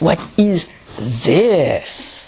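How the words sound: The stress falls on the word this. "Or more on the this"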